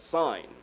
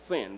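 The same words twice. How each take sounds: First: The vowel is long, rhyming with 'fine'. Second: The vowel is short, rhyming with 'tin'. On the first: The speaker calls it right. "It's really pronounced S-I-G-N" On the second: The speaker calls it wrong. "not sin"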